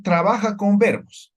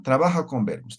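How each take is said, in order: First: "trabaja con verbos" spelled out slowly, higher and louder, every word weighted; slow emphatic repeat. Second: Said in the usual way. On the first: Shown as a demonstration. Teacher stressing to the class that "trabaja con verbos", slow and loud. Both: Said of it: "es decir".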